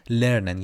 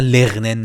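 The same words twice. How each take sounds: First: لرنن with a light R, no throaty gh; correct German R. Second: لغنن with a guttural "gh" for the R; wrong throaty R. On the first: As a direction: model لرنن, "lernen", without scraping. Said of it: "یه ری درش هست". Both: Shown as a demonstration.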